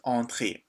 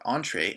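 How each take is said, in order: First: The word is said with a French pronunciation. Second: The word is said with an English pronunciation.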